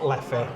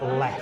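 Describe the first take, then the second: First: It is two syllables ending in an ee sound. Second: It is one syllable with no final vowel. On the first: The speaker calls it wrong. "not Leffy" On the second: The speaker calls it right. "you pronounce it Leff"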